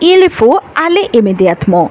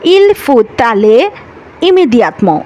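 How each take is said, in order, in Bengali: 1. যুক্ত করার কোনো ব্যঞ্জনধ্বনি ছাড়াই শব্দগুলো আলাদা থাকে। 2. একটি ব্যঞ্জনধ্বনি শব্দগুলোকে একসাথে যুক্ত করে। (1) "আপনাকে কি বলতে হবে?" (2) "এটা কিন্তু ভুল।"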